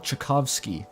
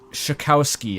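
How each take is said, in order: First: The name begins with a sharp 'ch' sound. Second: The name begins with a soft 'sh' sound. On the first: The speaker calls it right. "It's pronounced the same as Tchaikovsky" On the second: The speaker calls it wrong. "I'm gonna say"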